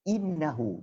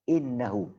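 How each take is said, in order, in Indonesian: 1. Vokal pertama adalah bunyi 'i' yang jelas. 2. Vokal pertama adalah bunyi 'a'. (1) "I sebutannya i. Jadi innahu" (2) "bukannya innahu"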